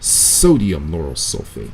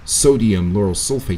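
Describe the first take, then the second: First: The S sounds are held and drawn out. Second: The S sounds are short and normal. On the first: "He's holding his S's a lot" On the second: "instead of saying"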